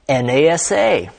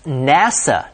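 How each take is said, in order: First: It is spelled out letter by letter. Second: It is said as one whole word. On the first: The speaker calls it wrong. "not NASA" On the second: The speaker calls it right. "should be pronounced NASA"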